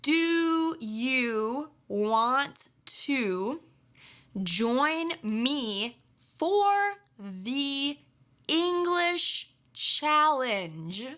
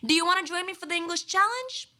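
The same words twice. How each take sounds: First: Each word is said slowly and separately. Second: The words run together quickly and smoothly. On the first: The speaker calls it wrong. "that's very slow and not very natural or native like" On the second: The speaker calls it right. "that's a bit more like it"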